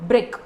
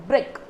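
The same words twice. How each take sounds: The two takes are said the same way.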